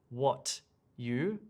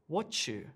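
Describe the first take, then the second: First: The t and y sounds stay separate. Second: The t and y blend into a ch sound. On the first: The speaker calls it wrong. "I do not say what you" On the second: The speaker calls it right. "I say what you"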